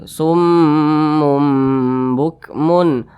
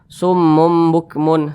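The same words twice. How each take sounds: First: The nasal mm is held for several beats. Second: The nasal mm is cut short, not held. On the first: The speaker calls it right. "didengungkan seperti itu. Didengungkan, ditahan dulu suaranya" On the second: The speaker calls it wrong. "Jangan summum bukmun, summum bukmun. Nah, itu kurang tepat ya"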